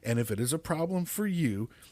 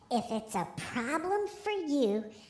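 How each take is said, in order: First: It is said in his normal voice. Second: It is said in a put-on baby voice.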